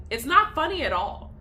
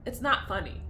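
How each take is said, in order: First: "not" hit higher and louder; "not" punched up in "It's not funny at all"; stress on not. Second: Said in the usual way. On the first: Real, not acted. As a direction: lean hard on "not".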